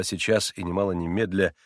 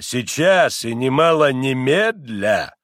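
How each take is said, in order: First: Said in the usual way. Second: Loud, slow, heavily stressed сейчас and немало немедля; stern, drawn-out insistence; almost angry. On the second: A narrator's reading. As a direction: bear down sternly on each word. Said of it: "а почти гневно".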